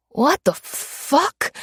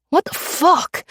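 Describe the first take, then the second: First: Higher, very slow drawn-out what; dazed disbelief. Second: Much higher, sharp fast what, falling; panicked disbelief. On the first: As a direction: stretch it out, stunned and lost. Confused mugger pinned down. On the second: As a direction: blurt it out in panic. Mugger panics under the gun. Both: Acted.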